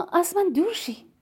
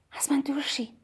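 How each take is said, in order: First: «از من دور شی» pitched higher, voiced, at normal level; higher insistent repeat. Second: Whispered, softer, falling at the end; quiet. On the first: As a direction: repeat it up high with a push on «من». (تکرار با صدای بلندتر و زیرتر) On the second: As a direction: breathe «از من دور شی» in a hush. (با صدای آرام و نجواگونه) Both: A narrator's reading. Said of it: "با صدای آرام گفتم".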